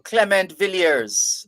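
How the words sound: The name is pronounced the English way. "that's the anglicized pronunciation"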